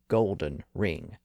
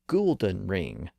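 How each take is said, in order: First: The first word sounds like 'gold'. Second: The first word sounds like the name 'Gould'. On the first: This is the present-day pronunciation. "not a golden ring" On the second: This is the early modern pronunciation. "Shakespeare would have referred to a Goulden ring"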